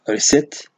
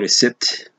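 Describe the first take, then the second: First: The p is silent. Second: The p is sounded. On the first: The speaker calls it right. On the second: The speaker calls it wrong.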